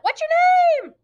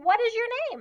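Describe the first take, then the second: First: The question is shouted loudly. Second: The question is asked at a calm volume. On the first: The asking is rude. The speaker calls it wrong. "Are we yelling it? Don't yell that" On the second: The asking is polite and awaits an answer. The speaker calls it right. "We're asking"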